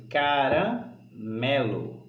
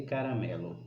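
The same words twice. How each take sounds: First: Caramelo drawn out slowly in its syllables; separated syllables. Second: Said in the usual way. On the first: Shown as a demonstration. Teacher setting pupils a word to analyse, caramelo slowly split by syllables. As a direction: pull caramelo apart, slow and measured. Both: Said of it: "separando as sílabas dela".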